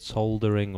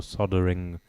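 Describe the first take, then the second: First: "soldering" with the L sounded; British-style soldering. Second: "soldering" with a silent L; American-style soldering. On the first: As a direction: say "soldering" as SOL-dering, L pronounced. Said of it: "don't know what the pronunciation is". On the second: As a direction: say "soldering" as SOD-ering, no L. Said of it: "as they say in America". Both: Shown as a demonstration.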